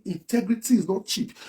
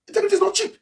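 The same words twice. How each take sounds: First: Slow, measured delivery of the slogan; quoted slogan. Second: Slogan repeated far up in pitch; high-pitched slogan. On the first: Quoting what "they say" about integrity, slow and measured. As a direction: spell out the slogan slowly and evenly. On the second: Repeating the integrity slogan to viewers, high-pitched. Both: Retold or imitated.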